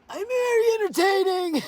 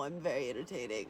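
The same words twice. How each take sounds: First: Higher, louder, put-on showy voice. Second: Said in the usual way. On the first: Streamer showing chat her put-on voice, higher and louder. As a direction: ham it up in a bold put-on voice.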